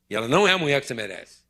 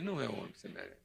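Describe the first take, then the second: First: It is said in a stern, unsympathetic tone. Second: It is said in a gentle, merciful tone.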